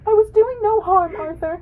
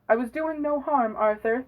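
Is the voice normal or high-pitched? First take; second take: high-pitched; normal. First: It is read in a high-pitched voice. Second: It is read in a normal voice.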